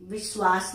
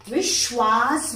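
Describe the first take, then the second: First: "विश्वास" with a plain s in the middle; wrong sibilant. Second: "विश्वास" with a strong sh, vish-waas; correct sh sound. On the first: Teacher showing the error, "विश्वास" with s for sh. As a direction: say "विश्वास" as biswaas, no sh. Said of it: "विश्वास नहीं बोलते हैं". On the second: Teacher correcting students, "विश्वास" with emphatic sh. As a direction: lean on the sh of "विश्वास". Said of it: "विश्वास बोलते हैं". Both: Shown as a demonstration.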